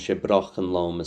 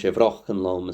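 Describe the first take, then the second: First: The word after 'she' begins with a B sound. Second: The word after 'she' begins with a V sound. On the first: The speaker calls it right. "So it's it's Brochenlom setan alom she Brochenlom Suwain" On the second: The speaker calls it wrong. "I said Vrochenlom, which I didn't need to"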